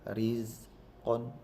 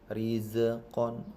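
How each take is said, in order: First: The consonant is held firmly without a bounce. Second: The consonant is released with an echoing bounce. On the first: The speaker calls it right. "Yang benar adalah rizqon" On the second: The speaker calls it wrong. "kesalahan yang sering terjadi rizqon. Ini salah"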